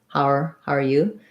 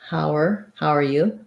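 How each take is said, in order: The two takes are said the same way.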